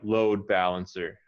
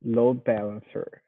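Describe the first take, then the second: First: "Load" punched, "balancer" lighter; stress on load. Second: "Load" stressed a touch less than the teacher; student repeating stress on load. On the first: Teacher modelling compound stress, leaning on "Load". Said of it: "load more than balancer". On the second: Student echoing the teacher, only a little stress on "Load". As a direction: tries to lean on "Load", still fairly even. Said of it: "emphasize the word load a little more". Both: Shown as a demonstration.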